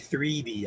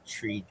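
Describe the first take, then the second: First: The first word begins with a th sound. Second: The first word begins with a t sound. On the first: This is how the speaker normally talks. "I say three D" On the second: This is how the speaker does not talk. "I don't say three D"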